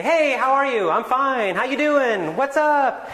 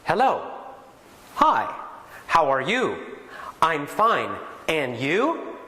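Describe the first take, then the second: First: High, loud, breezy casual greeting; casual real English. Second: Stiff, carefully pronounced textbook greeting; textbook English. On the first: A teacher shows how real speakers greet, breezy and loud. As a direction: toss it off like a friend on the street. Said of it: "They say". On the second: A teacher shows students the stiff textbook greeting, careful and formal. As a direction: recite it like a first English lesson. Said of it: "their first lessons might be". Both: Shown as a demonstration.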